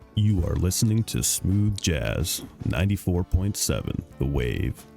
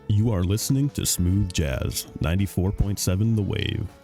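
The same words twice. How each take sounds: First: It is said more slowly. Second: It is said at a normal pace.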